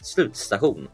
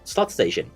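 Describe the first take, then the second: First: It is said with a Swedish pronunciation. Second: It is said with an English accent.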